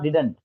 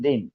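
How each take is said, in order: First: The word is said fully with two syllables. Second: The word is reduced to one short syllable. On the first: The speaker calls it wrong. "It is not डिडंट" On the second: The speaker calls it right. "It is डिन"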